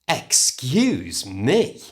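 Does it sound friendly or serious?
serious. It sounds serious and upset, with the full first syllable. The listener has caused offence. "You say excuse me when someone has done something or said something to upset you"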